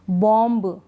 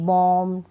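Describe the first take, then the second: First: बॉम्ब with an audible final B after the M; B wrongly sounded. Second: बॉम्ब ending on a held M, no B; silent B. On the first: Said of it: "नहीं". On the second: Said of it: "बी को हम नहीं पढ़ेंगे". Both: Shown as a demonstration.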